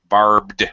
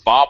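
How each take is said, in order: First: The R, B and D are all pronounced. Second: The R is dropped, sounding like Bob. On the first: The speaker calls it right. "we got R B D, three consonants in a row" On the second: The speaker calls it wrong. "do not say Bob Wire"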